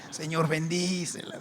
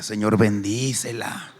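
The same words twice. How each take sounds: First: Said in the usual way. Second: Slow, louder earnest prayer; mock-pious slow prayer; inner prayer. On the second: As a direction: pray it solemnly. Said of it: "por dentro orando por ella".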